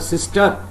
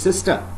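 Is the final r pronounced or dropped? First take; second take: pronounced; dropped. First: The final r is pronounced. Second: The final r is dropped, ending in schwa. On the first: "Instead of sister" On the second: "it is sister"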